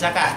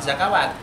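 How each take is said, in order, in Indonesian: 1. Tidak ada suku kata 'w' yang diucapkan di tengah. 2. Suku kata 'w' diucapkan di tengah. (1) "Tapi zakat" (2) "itu bukan zakawat"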